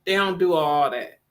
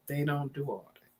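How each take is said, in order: First: Said in the usual way. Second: Much softer and lower, trailing away; fading murmur. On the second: Real, not acted. Repeating to herself about dad's side, softly fading. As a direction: let the repeat die under her breath.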